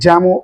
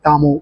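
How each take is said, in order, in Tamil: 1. இந்தப் பெயர் J ஒலியில் தொடங்குகிறது. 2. இந்தப் பெயர் Y ஒலியில் தொடங்குகிறது. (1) "இது ஜாமோ அப்படின்னு சொல்லுவாங்க" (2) "ஆடியோ ஃபைல் கேட்டகரியில் இருக்கிறவங்க ... இது யாமோ அப்படின்னு நம்ம ப்ரொனவுன்ஸ் பண்ணுவாங்க"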